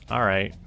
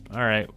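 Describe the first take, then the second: No difference in how they are said.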